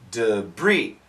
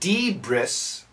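First: The word ends with no S sound. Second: The word ends with an audible S sound. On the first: The speaker calls it right. "we say debris, So the S is silent" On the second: The speaker calls it wrong. "We do not say debris"

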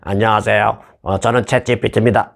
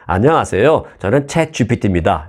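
First: It is said in a stiff, rigid tone. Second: It is said in a soft, smooth tone. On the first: The speaker calls it wrong. "딱딱했던 말투" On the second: The speaker calls it right. "상당히 부드러워졌습니다"

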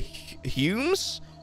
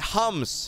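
First: The vowel is a long 'yoo' sound. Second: The vowel is a short 'uh' sound. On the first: The speaker calls it wrong. "not humes" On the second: The speaker calls it right. "the hums, not humes"

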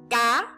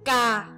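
First: The syllable is said on a high rising tone. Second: The syllable is said on a low falling tone. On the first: "Dấu sắc đặt trên âm A" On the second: "Dấu huyền đặt trên âm A"

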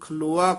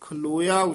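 First: No 'i' vowel is heard before the final 'aa'. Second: An 'i' vowel is heard before the final 'aa'. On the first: The speaker calls it wrong. "ਕਈ ਪਾਠੀ ਸਿੰਘ ਖਲੋਆ ਕਹਿ ਜਾਂਦੇ" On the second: The speaker calls it right. "ਖਲੋਇਆ ਉਚਾਰਨ ਕਰਨਾ"

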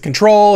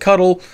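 First: It is said as the word control. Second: It is said as the word cuddle. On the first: "Is it control?" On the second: "Is it cuddle?"

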